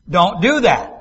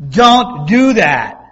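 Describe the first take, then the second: First: Said in the usual way. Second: Loud, slow, drawn-out warning; mom's stern drawn-out no. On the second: Retold or imitated. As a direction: scold a child the way Mom did. Repeats it louder, drawn out.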